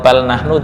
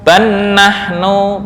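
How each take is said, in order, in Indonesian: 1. Bunyi l diucapkan dengan jelas. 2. Bunyi l menyatu dengan konsonan berikutnya. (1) "atau bal nahnu juga boleh" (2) "ban nahnu boleh"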